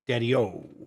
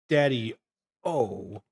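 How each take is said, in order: First: It is said smoothly as one word. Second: It is said as two separate words. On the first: The speaker calls it right. "Like one word, like you're a nineteen fifties hipster" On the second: The speaker calls it wrong. "You don't say Daddy-O"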